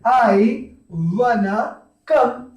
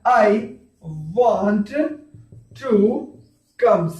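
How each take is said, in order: First: Want and to blend into one word, wanna. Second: Want and to are said as separate words. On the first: "इसको ऐसे भी बोल सकते हैं" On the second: "sentence क्या बनेगा?"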